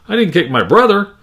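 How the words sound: The stress falls on the word brother. The sister was kicked instead. "or even brother"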